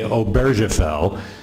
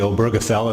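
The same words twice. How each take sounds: First: The name is pronounced with French-style sounds. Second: The name is pronounced with German-style sounds. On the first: "I was a French-speaking missionary, so I'm inclined to say" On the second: "I'll try to say Obergefell unless somebody objects"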